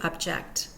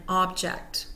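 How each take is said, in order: First: The stress is on the second syllable. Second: The stress is on the first syllable. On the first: It names the action of disagreeing. "we hear the second syllable taking the primary stress when those words become a verb" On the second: It names a thing. "an object, we pronounce with stress the first syllable"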